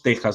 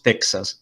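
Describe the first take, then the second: First: The x is a rough throat sound like j. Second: The x is sounded as ks. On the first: The speaker calls it right. "en español decimos Texas" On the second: The speaker calls it wrong. "no decimos Texas"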